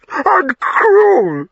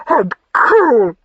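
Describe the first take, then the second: First: Even higher, breaking into a sob; sobbing cry. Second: Much higher and louder, indignant; wounded accusation. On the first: Wife sobbing at her husband's harshness, tearful wail. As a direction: wail it through tears. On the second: Wife accusing her husband, indignant wounded cry. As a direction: fling it back at him in hurt. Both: Acted.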